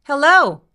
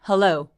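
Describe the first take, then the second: First: The voice is pitched high and tense. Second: The voice is pitched low and relaxed. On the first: The speaker calls it wrong. "얘가 너무 높이 올라가진 않는지 확인해 보시는 거예요" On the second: The speaker calls it right. "얘가 지금 거의 많이 안 움직이고 있거든요"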